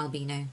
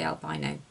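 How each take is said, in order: First: Albino said al-BEE-no; alternative pronunciation. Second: Albino said al-BY-no; alternative pronunciation. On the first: Correcting herself on the word, albino pronounced al-BEE-no. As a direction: middle of albino rhymes with "bee". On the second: Quoting what Abby laughs at, albino pronounced al-BY-no. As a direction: middle of albino rhymes with "buy". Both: Shown as a demonstration. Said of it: "now I see both ways together".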